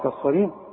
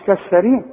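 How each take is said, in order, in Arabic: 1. صوت s ثقيل ومفخم. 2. صوت s خفيف ومرقق.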